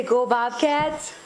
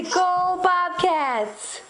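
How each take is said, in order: First: Said in the usual way. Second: High and very slow, stressing "Go"; slow cheer for baby. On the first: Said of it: "Can you say". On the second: Shown as a demonstration. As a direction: draw out "Go" for the baby.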